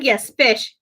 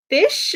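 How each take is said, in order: First: FISH falling at usual pitch, as an answer; confirming. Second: FISH pitched high, rising as a question; puzzled question. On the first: Caller answers Frost's question, confirming FISH. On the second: Frost asks about the garbled phone word, puzzled FISH. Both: Retold or imitated.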